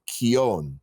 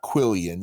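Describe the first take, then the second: First: The word is said without an L sound. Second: The word is said with an L sound. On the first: The speaker calls it right. "It is pronounced Kion" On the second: The speaker calls it wrong. "it is not pronounced that way"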